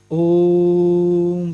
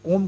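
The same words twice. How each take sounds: First: ओम with the ओ held very long on one steady note; लंबा खिंचा ओम. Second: Said in the usual way. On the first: Shown as a demonstration. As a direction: draw out the ओ in ओम like a chant, closing on म. (ओम के ओ को एक ही सुर में बहुत लंबा खींचकर) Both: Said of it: "ओ जो था बहुत लंबा खिंचा".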